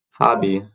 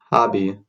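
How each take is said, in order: Both takes have the same delivery.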